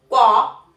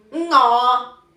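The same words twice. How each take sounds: First: "guo" as Mandarin wo, short and loud, without the ng; Mandarin pronunciation. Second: "ngo" loud and drawn out, with ng onset; Cantonese pronunciation. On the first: Teacher contrasting with Cantonese, Mandarin "guo" said as wo. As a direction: say "guo" with a w glide, Mandarin style. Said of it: "W, O y el tercer tono". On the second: Teacher contrasting with Mandarin, Cantonese "ngo" held loud on ng. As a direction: begin "ngo" on a nasal ng and hold it. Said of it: "Entonces se dice". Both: Shown as a demonstration.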